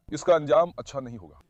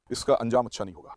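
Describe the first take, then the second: First: Said in the usual way. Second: Lower, softer ominous voice; a dark, hushed prophecy; ominous warning voice. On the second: Shown as a demonstration. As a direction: warn of doom in a different voice.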